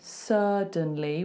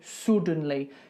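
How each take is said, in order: First: The first vowel is an open 'uh' sound. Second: The first vowel is a rounded Northern English sound. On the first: "instead of going suddenly with an open uh" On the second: "that's Northern England ... you go suddenly"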